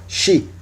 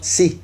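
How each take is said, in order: First: The syllable begins with a 'sh' sound. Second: The syllable begins with a plain 's' sound. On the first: "como ese H, o como X en español" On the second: "sino pronunciaban Si"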